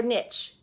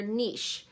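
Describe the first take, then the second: First: Niche said nitch, rhymes with itch. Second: Niche said neesh, soft sh ending; niche rhymes with quiche. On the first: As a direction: say niche with a short i and a ch. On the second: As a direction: say niche as neesh, French style. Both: Shown as a demonstration. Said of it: "Is it niche or niche?".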